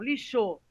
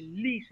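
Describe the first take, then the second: First: The stress is on the last syllable. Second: The stress is on the first syllable. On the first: The speaker calls it wrong. "não lixou" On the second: The speaker calls it right. "a sílaba tônica é lixo, né? Li"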